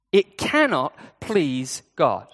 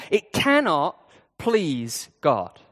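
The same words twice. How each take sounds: First: 'It cannot please God' said very slowly with weight on 'cannot'; slow emphatic repeat. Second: Said in the usual way. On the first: Shown as a demonstration. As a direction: lean into 'cannot' and stretch every word.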